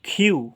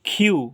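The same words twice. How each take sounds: The two takes are said the same way.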